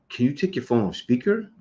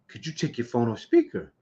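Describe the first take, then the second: First: It is said with attitude but less emphasis. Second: It is said with strong, heavy emphasis.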